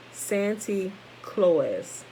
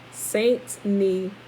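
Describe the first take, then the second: First: Slow, drawn-out Santy Claus said as the Dutch did; Dutch-accented Saint Nicholas. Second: Said in the usual way. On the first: Shown as a demonstration. Reading to the class, slowly sounding out the Dutch version. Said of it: "it sounded like this". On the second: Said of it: "I probably said that wrong".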